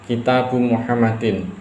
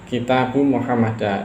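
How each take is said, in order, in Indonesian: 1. Nama itu berakhir dengan bunyi -in. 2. Nama itu berakhir dengan bunyi -a. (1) "ini sahih, benar" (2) "ini salah"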